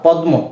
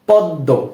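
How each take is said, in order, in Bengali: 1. m ধ্বনিটি d-এর পরে উচ্চারিত হয়। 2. d-টি দ্বিত্ব হয় এবং কোনো m শোনা যায় না। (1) "এরূপ হবে না" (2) "এখানে কিন্তু ময়ের উচ্চারণটা হয়নি"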